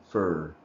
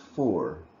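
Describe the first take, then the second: First: The word is said with a reduced vowel. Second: The word is said with a full vowel. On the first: "In rapid speech, it becomes for" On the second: "the word is for"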